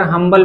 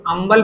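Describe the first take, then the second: First: हम्बल said with a clear h at the start, ham-bal. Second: अम्बल said with no h, starting on the a, am-bal; without the h. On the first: Teacher showing students हम्बल with a spoken h. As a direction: sound the h in हम्बल plainly. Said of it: "हम्बल भी पढ़ा जाता है". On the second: Teacher showing students the h-less अम्बल. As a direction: drop the h, say अम्बल. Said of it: "इसको अम्बल भी पढ़ा जाता है". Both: Shown as a demonstration.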